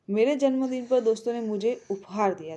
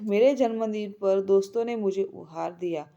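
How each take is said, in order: First: The stress is on उपहार. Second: The stress is on दोस्तों.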